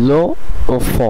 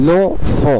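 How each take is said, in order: First: The vowel of 'le' is kept before 'enfant'. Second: The vowel of 'le' is dropped and merged.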